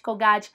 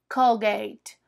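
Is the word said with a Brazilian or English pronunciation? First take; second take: Brazilian; English. First: It has a Brazilian Portuguese pronunciation. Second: It has an English pronunciation. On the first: This is how people say it in Brazil. The speaker calls it wrong. "A gente adora falar Colgate" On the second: This is how it is said abroad. The speaker calls it right. "mas lá eles falam Colgate"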